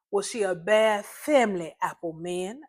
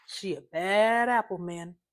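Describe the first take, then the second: First: Snapped back. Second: Said in the usual way. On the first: Acted. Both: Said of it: "I snapped back".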